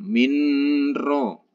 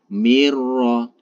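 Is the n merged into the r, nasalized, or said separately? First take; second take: nasalized; merged. First: The n is held with a nasal hum. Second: The n merges fully into the r, unnasalized. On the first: The speaker calls it wrong. "apalagi didengungkan minro ... itu salah" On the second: The speaker calls it right. "ditekan tanpa didengungkan ... itu yang benar"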